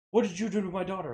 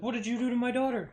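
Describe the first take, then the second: First: Fast, sharp mock confrontation; quick accusing demand at the door; retold angry dad. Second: Higher, faster accusing repeat; pressing the question again, louder and higher; retold angry dad. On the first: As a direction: fire it off like an angry father. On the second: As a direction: push the demand harder the second time.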